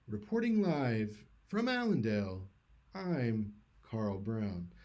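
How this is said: It is said with an exaggerated news-anchor closing cadence. "they do this thing with their voice when they're finished"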